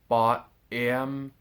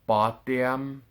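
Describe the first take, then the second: First: The two words are said apart. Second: The two words run together as one. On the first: The speaker calls it wrong. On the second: The speaker calls it right.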